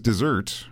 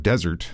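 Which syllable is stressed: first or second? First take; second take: second; first. First: The stress is on the second syllable. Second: The stress is on the first syllable. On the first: It sounds like the sweet course after a meal. The speaker calls it wrong. "I have a sweet tooth" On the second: It names a dry, sandy land. The speaker calls it right. "which makes a lot more sense than dessert"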